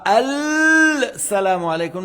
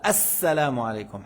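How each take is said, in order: First: The l sound of al is clearly pronounced. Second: The l merges into a doubled s sound. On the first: The speaker calls it wrong. "on ne dit pas al salamu alaykum" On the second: The speaker calls it right. "le al, on ne la prononce pas"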